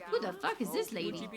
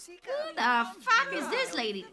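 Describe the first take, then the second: First: Said in the usual way. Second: High, loud, slower outburst; loud disbelief. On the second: Real, not acted. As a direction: shout the question, leaning on each word. Repeats it louder at the stranger.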